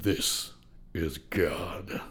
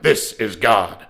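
First: The voice is slow and very deep. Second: The voice is quick and fairly high. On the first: This is the line after being slowed down, as heard in the film. "and then with comment you get" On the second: This is the line as recorded, before processing. "So when he was actually saying the line, he would be like"

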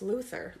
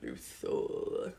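First: The final syllable is reduced, not a full 'or'. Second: The final syllable is a full 'or' sound. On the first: This is the familiar way of saying the name. The speaker calls it right. "I've always thought of it as Lex Luthor" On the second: This is how the film kept saying the name. The speaker calls it wrong. "because it's like O-R, ... not Luthor"

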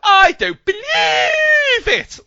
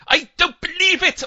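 First: It is said in a drawn-out, exaggerated way. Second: It is said in a short, clipped way.

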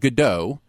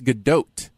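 First: The final T sound is left silent. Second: The final T sound is clearly pronounced. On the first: The speaker calls it wrong. "So it's not Gadot, you would think a silent T" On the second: The speaker calls it right. "The T is pronounced, but it's Gadot"

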